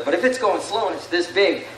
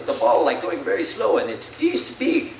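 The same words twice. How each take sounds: First: Said in the usual way. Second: Attempted Sammy Sosa accent. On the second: Retelling a slugger's interview to the audience, attempted accent. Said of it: "I can't do the accent".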